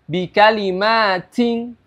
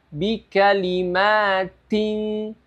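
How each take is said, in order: First: The t carries a strong, drawn-out hiss. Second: The t carries only a slight hiss. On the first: The speaker calls it wrong. "itu berlebihan" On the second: The speaker calls it right. "Cara membaca yang benar adalah"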